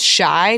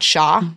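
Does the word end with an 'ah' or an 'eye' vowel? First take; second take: eye; ah. First: The word ends with an 'eye' vowel. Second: The word ends with an 'ah' vowel. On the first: The speaker calls it right. "it's Shy" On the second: The speaker calls it wrong. "not Sha?"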